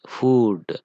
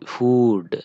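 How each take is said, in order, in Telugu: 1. అచ్చు పొడవుగా ఉంది, 'oo' శబ్దం. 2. అచ్చు పొడవుగా ఉంది, 'oo' శబ్దం.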